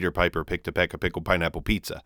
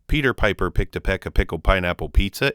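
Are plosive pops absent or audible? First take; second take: absent; audible. First: The plosive pops are almost completely suppressed. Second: Mild plosive pops can be heard on some words. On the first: "Pop filter works damn near to perfection" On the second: "It's not terrible without the pop filter"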